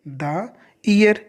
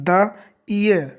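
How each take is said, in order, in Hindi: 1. 'The' को छोटे 'thuh' स्वर के साथ बोला जाता है। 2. 'The' को छोटे 'thuh' स्वर के साथ बोला जाता है।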